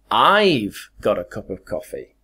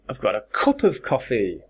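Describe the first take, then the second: First: The stress falls on the word I've. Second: The stress falls on the word cup. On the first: The speaker, not someone else, has it. "Me, I'm the one who's got a cup of coffee" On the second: It is a cup, not another kind of container. "I hit cup like that"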